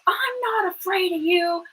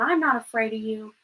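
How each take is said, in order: First: It is yelled loudly and forcefully. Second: It is said at a normal speaking volume. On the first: "then he yelled" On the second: "then he said it again"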